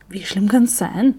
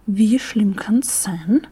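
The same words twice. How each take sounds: First: Slow, offhand and annoyed question; mildly annoyed shrug of a question. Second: Very slow, whispered mocking repeat of "Wie schlimm kann's sein?"; snorting friend mimics the question slowly; snorting echo. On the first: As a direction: brush it off with irritation. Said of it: "meint Franzi genervt". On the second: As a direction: throw the words back, drawn out in disbelief. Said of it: "Kathi schnaubt". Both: A narrator's reading.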